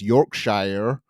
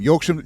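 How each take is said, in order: First: It is said with an American pronunciation. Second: It is said with a British pronunciation. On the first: "All of the American listeners will know it more as Yorkshire" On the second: "Yorkshire is a part of England"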